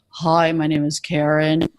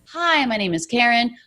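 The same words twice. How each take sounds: First: It is spoken at a much lower pitch. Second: It is spoken at a normal, higher pitch.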